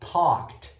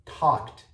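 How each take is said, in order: First: The ending is pronounced as a short t sound. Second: The same.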